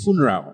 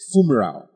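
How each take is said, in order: First: The middle consonant is an n sound. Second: The middle consonant is an m sound. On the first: The speaker calls it right. "It's funeral" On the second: The speaker calls it wrong. "It is not fumeral"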